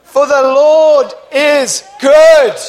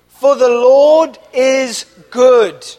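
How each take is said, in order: First: Louder, slower, shouting it out with conviction; believing shout. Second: Call to repeat. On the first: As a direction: proclaim it like you mean every word. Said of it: "Say it like you believe it". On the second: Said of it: "Say that with me". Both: Shown as a demonstration.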